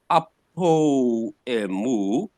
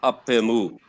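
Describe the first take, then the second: First: "apoemu" drawn out slow with every vowel kept; wrong pronunciation. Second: "Apemu" said as one word, o dropped; elided form. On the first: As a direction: stretch "apoemu" out, keeping the o. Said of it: "the pronunciation now is not". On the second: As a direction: say "Apemu" in one smooth breath. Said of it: "pronounce it as one word". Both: Shown as a demonstration.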